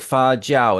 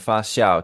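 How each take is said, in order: First: The second syllable begins with a 'j' sound. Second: The second syllable begins with an 'sh'-like sound. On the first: This is the form the dictionary gives. "the dictionary says it's fa jiao" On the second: This is the form people use in everyday speech. "I heard fa jiao and fa xiao from people"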